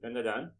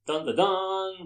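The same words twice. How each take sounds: First: The vowels are short and plain. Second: The vowels are stretched out dramatically. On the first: "So Dandadan" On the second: "I can't help but pronounce as Dandadan, but that will require a few more A's"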